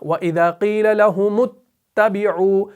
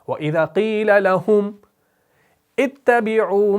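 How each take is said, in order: First: Lahum runs straight into the next word without pause. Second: A stop after lahum, then restarting with 'itta'. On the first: "इस मीम पेश को आप आगे बराह रास्त इस ता से मिलाते हैं" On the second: "अगर आप लहुम पर ही वक्फ करें तो आगे शुरू किससे करना है, हमजा से"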